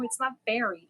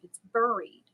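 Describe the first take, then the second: First: "buried" said BERRY-d, with an "eh" vowel; rejected pronunciation. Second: "buried" said BUR-eed, with "bur" like "fur"; insisted own pronunciation. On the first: Parent arguing with daughter, "buried" as BERRY-d. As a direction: deny it, saying "buried" like "berried". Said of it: "She says, "It's buried". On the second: Parent correcting daughter, "buried" as BUR-eed. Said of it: "I say buried". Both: Shown as a demonstration.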